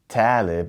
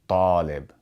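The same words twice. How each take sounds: First: The first consonant is a light, plain T. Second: The first consonant is a heavy, emphatic T. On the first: The speaker calls it wrong. "we don't say talib" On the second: The speaker calls it right. "we say talib"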